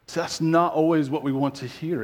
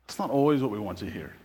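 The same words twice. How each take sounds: First: "not" leaned on, spoken out to the room; "not" given the weight; stress on not. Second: Softer, lower and quicker repeat, "not" still leaned on; a low, fast murmured restatement; quieter echo. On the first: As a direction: press the word "not" as a point. Preacher repeats line for emphasis. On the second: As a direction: let it sink in, half to yourself. Preacher repeats line more softly. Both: Acted.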